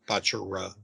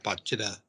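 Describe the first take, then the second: First: The middle consonant sounds like an r. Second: The middle consonant sounds like a d. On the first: The speaker calls it wrong. "not Bachira" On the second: The speaker calls it right. "yeah Bachida"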